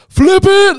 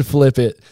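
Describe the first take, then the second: First: High, very loud imitated yell; yelling full force. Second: Louder, raised retold scream, held back; mock scream. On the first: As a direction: scream it out like a coach at the top of his lungs. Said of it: "he's yelling at the top of his lungs". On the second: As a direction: echo the coach's scream at reduced force.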